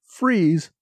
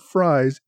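First: The name rhymes with fees. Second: The name rhymes with fries. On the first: The speaker calls it right. "assure me that Freeze, not Fries, is the correct pronunciation" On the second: The speaker calls it wrong. "not Fries"

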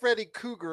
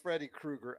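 First: The surname sounds like 'cougar', without the r. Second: The surname has a clear r after the k. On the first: The speaker calls it wrong. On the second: The speaker calls it right.

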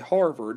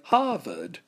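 First: It is said in a General American accent. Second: It is said in a New England accent. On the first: "We may say Harvard if you're a non-New Englander" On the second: "New Englanders will say Harvard"

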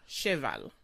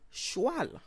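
First: The word is said the French way. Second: The word is said the Creole way.

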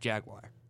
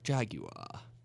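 First: It is said with an American pronunciation. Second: It is said with a British pronunciation.

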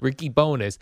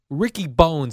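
First: The surname is said as two syllables. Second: The surname is said as one syllable. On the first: The speaker calls it wrong. "Everyone's calling him Bonus" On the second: The speaker calls it right. "Ricky Bones is a great name"

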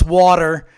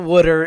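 First: The word is said in a standard accent. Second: The word is said in a Philadelphia accent. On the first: "It's water" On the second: "the whole South Philly Delco Wooder thing"

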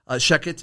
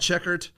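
First: The surname has no R sound. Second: The surname has an added R sound. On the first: The speaker calls it right. "excuse me" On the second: The speaker calls it wrong. "I mispronounced his name. I was adding an R into his last name"

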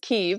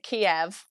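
First: The name is said like 'Keev'. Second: The name is said like 'Kee-ev'. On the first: This is how people in Ukraine say it. The speaker calls it right. "people in Ukraine pronounce it Kyiv" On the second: This is the older, familiar pronunciation. The speaker calls it wrong. "I used to pronounce it Kiev"

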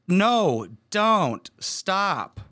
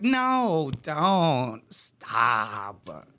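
First: It is said as a serious, alarmed protest. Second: It is said in a playful, teasing way. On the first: The person truly wants it to end. "if you read it in court, it would sound terrible" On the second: The person is enjoying it and means the opposite. "she didn't say it that way"

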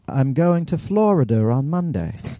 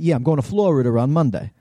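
First: It is said in a British accent. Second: It is said in a New York accent.

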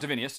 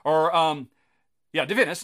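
First: The name ends in -nius with an extra vowel. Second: The name ends in -nus with no extra vowel. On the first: The speaker calls it wrong. "not Divinius" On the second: The speaker calls it right. "Divinus, not Divinius"

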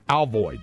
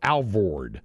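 First: The second syllable is said with an I sound. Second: The second syllable is said with an R sound.

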